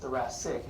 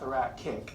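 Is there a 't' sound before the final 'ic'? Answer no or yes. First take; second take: no; yes. First: The ending is said without an extra t sound. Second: The ending is said with an extra t sound. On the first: The speaker calls it right. "remember it's C I C but pronounced thoracic" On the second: The speaker calls it wrong. "not thoracic"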